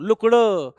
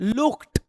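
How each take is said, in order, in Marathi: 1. शेवटचा आवाज d आहे. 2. शेवटचा आवाज t आहे. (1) "ड नका करू" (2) "इट्स ट"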